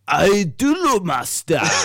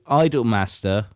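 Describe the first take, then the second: First: It is said with a Japanese-style pronunciation. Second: It is said with a plain English pronunciation.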